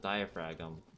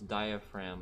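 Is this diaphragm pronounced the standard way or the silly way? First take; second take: silly; standard. First: The word is pronounced in a silly, altered way. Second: The word is pronounced the standard way. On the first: The speaker calls it wrong. "as diaphragm purposefully because I thought it was silly" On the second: The speaker calls it right. "I would always pronounce diaphragm as"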